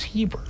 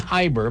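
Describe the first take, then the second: First: The first vowel sounds like 'ee'. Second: The first vowel sounds like 'eye'. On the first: This is how the name is actually said. The speaker calls it right. "but it's I-E. It's Heber" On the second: This is how the name would sound if spelled E-I. The speaker calls it wrong. "So if it were E-I, it Would be Heber"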